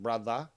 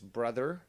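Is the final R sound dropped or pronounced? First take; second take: dropped; pronounced. First: The word ends without an R sound. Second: The word ends with a clear R sound. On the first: The speaker calls it wrong. "not brother" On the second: The speaker calls it right. "in proper English, it ends with an E R"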